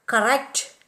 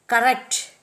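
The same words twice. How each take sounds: First: Cor-RECT, with a weak first vowel; stress on the root. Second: COR-rect, with a full stressed first vowel; first-syllable stress. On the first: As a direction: correct accented on its second syllable. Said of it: "are accented on the root". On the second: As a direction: correct accented on its first syllable. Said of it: "are accented on the first syllable". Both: Shown as a demonstration.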